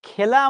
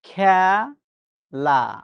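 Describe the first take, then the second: First: The first vowel sounds like 'e' in 'bed'. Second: The first vowel sounds like 'a' in 'cat'. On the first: This is how the word is written. "ক্রিকেট খেলা আমরা লিখি" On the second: This is how the word is actually spoken. "বাস্তবে আমরা উচ্চারণ করি কি?"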